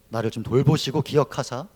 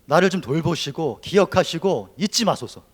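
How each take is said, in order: First: Said in the usual way. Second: 돌보시고 and 잊지 pushed out loud and slow; desperate plea. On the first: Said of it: "살려달라는 기도예요". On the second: Acted. Preacher crying out Hannah's plea, loud and slow. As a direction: beg loudly, stretching each word. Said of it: "사람의 절규에 가깝습니다".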